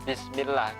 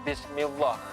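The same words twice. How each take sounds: First: The 'l' in Allah is light and thin. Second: The 'l' in Allah is heavy and thick. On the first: The speaker calls it right. "kalau ada lafaz Allah sebelumnya berupa kasrah maka dibaca bismillah" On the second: The speaker calls it wrong. "nggak boleh bismillah"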